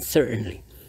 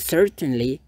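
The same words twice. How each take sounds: First: The middle t is a glottal stop. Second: The middle t is clearly released. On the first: "lebih banyak bule mengucapkannya dengan certainly ... glottal stop or glottal T" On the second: "that's also correct"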